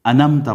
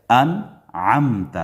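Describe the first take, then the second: First: انمتا said dropping the ع; wrong, no ain. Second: انعمت with clear ع from throat; correct ain. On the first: Teacher mimics students dropping ain. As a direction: slide past the ain in انمتا. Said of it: "عین مس کر جاتے ہیں". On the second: Teacher models the ain in انعمت. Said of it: "عین کا ادا کرنا بھی ضروری ہے". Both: Shown as a demonstration.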